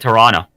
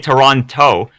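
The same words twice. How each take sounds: First: The second T is dropped. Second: The second T is clearly pronounced. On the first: The speaker is a local. The speaker calls it right. "We drop the T" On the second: The speaker is not from the city. The speaker calls it wrong. "you don't say Toronto"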